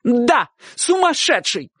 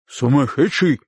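First: High, drawn-out emphatic cry; shouted confirmation. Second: "Сумасшедший" asked back, not raised; questioning echo. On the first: Aunt answering uncle's question, shouting. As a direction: stretch the confirmation, pitched high. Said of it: "крикнула тётушка". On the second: Uncle checking with aunt, asking "Сумасшедший" back. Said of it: "переспросил дядюшка". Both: A narrator's reading.

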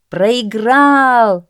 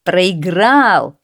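First: High, loud, drawn-out cry; long, raised crowd shout; crowd uproar. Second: Gleeful. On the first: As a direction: roar the verdict like a crowd. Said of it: "зашумела толпа". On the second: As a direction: exult over the loser. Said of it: "обрадовались сеньоры". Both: A narrator's reading.

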